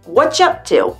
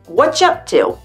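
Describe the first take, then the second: First: The word 'are' is dropped entirely. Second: The same.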